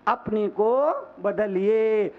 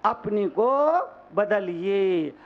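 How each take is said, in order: Both takes have the same delivery.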